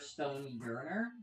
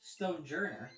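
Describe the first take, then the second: First: The second part begins with a Y sound. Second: The second part begins with a J sound. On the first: The speaker calls it wrong. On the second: The speaker calls it right.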